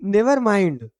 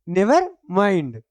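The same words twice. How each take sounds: First: Said in the usual way. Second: "never mind" drawn out very slowly, each word spelled out clearly; slow repeat for the class. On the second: Shown as a demonstration. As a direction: dictate "never mind" slowly so pupils can copy it. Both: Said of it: "क्या हुआ?".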